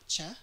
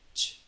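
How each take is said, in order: First: The sound is said with voice added. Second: The sound is said with no voice. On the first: The speaker calls it wrong. "Not ch" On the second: The speaker calls it right. "no voice at all"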